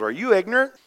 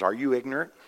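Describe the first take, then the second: First: High-pitched, emphatic challenge; Paul's incredulous rebuke. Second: Said in the usual way. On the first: Acted. Paul confronting the careless church, high and incredulous. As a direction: throw the question back, pitched well up. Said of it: "And Paul goes". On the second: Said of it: "it says".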